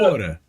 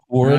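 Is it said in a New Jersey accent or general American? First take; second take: New Jersey; general American. First: It is said with a New Jersey accent. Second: It is said with a general American accent.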